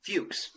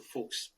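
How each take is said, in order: First: "Fuchs" as "fyooks", with a y glide; "Fuchs" with a "few" sound before the ks; American pronunciation. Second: "fuchs" as "fooks", no y glide; "fuchs" the accented way, rhyming with "kooks"; accented pronunciation. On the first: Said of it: "And in America, we would say". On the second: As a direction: say "fuchs" softly with a plain oo vowel. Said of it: "We say the word fox with an accent". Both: Shown as a demonstration.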